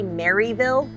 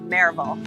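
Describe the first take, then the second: First: It is said in three syllables, like Mary-ville. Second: It is said in two syllables, like mare-vul. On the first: The speaker does not know the local area. The speaker calls it wrong. "they don't know anything about the area" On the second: The speaker knows the local area. The speaker calls it right. "a female horse is a mare. You add a vul on the end of it"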